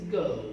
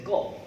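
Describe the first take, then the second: First: "go" with a British gliding vowel; British pronunciation. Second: "go" as some Americans say it; quick American "go" with a purer o; American pronunciation. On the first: Teacher models British English for learners, "go" in British pronunciation. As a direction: say "go" the British way, as a diphthong. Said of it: "British pronunciation is go". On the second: Teacher contrasts American with British, "go" in American pronunciation. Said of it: "some Americans say go". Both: Shown as a demonstration.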